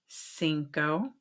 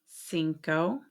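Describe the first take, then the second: No difference in how they are said.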